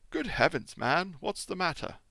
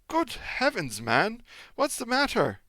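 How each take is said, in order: First: Loud, high cry of alarm, a bit less shrill; doctor's startled cry at the door. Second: High, loud shocked cry; startled outcry at the doorway; cry of surprise. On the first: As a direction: blurt it out in alarm. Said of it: "cried the medical man". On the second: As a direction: gasp it out at the sight of him. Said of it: "I gave a cry of surprise". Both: Acted.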